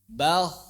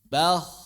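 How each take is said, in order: No difference in how they are said.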